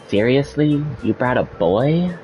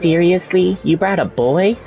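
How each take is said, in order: First: It is said in a plainer, lower voice. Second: It is said in a higher Valley Girl voice.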